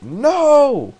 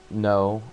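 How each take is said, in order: First: A piercing, much higher and louder scream of no; a terrible scream of pain; anguished scream. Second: Said in the usual way. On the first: Retold or imitated. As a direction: shriek it out in pain. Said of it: "McGonagall shouts it". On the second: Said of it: "there's a loud".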